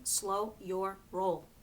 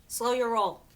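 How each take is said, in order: First: Slow, drawn-out advice. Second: Firm emphatic repeat. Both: Shown as a demonstration.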